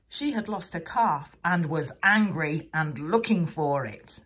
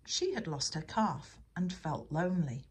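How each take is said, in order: First: "angry" and "looking" hit hard and loud; louder, emphatic storybook correction; punchy angry retelling. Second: Said in the usual way. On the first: A narrator's reading. Revised, angrier take of sentence.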